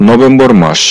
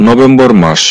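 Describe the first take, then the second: No difference in how they are said.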